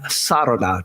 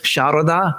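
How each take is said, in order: First: The name begins with a plain s sound. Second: The name begins with a sound close to sh. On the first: "just an S sound" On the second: "like an S H sound, modified, close to an S H sound"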